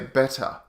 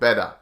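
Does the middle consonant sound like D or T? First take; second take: T; D. First: The middle consonant is a crisp, released T. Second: The middle consonant is a soft D-like tap. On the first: "we don't usually say better" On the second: "We just make the T sound like a D"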